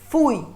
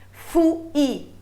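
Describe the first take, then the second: First: The vowels glide together in one syllable. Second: The vowels are split into two separate syllables. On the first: The speaker calls it right. "É pai, pouco, fui" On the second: The speaker calls it wrong. "Não"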